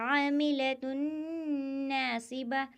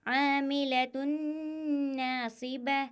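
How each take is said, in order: The two takes are said the same way.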